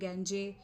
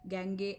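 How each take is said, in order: First: The word has two syllables ending in jay. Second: The word has two syllables ending in gay. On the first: "ऐसा कुछ भी नहीं होता" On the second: "ऐसा कुछ भी नहीं होता"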